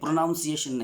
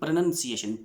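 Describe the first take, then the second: First: The second syllable sounds like 'noun'. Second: The second syllable sounds like 'nun'. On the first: The speaker calls it wrong. "प्रोनाउंसिएशन नहीं" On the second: The speaker calls it right.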